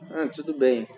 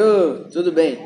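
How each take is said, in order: First: It is said in a downcast, unhappy tone. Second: It is said in a cheerful, upbeat tone.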